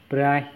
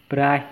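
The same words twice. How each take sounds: Both takes have the same delivery.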